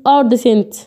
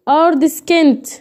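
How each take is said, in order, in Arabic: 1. النص فيه صوت S بس، ومفيش K. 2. النص فيه S وبعدها K. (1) "عشان كده ما نطقتهاش" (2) "ليه هنا ما قلتش ارد سكنت؟"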